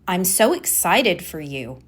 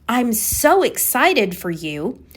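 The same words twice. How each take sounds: First: The voice sounds flat and not excited. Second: The voice sounds genuinely excited and lively. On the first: "but maybe I say it, my tone is" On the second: "Let's say I say"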